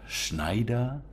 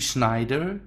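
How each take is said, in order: First: The name is pronounced the German way. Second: The name is pronounced the English way.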